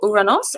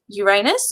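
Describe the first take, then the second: First: The name ends with an 'os' sound. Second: The name ends with an 'us' sound. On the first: "Uranos as the Greeks pronounced it" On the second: "the planet Uranus"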